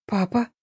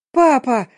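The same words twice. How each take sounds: First: Small, hesitant rising question; faint, tentative appeal to father; timid babble. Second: Loud, high call for father; urgent acted shout; yelling. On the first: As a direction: falter it out, dreading the answer. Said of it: "пролепетала". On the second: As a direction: yell out for dad, pitch raised. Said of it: "заорала я". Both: A narrator's reading.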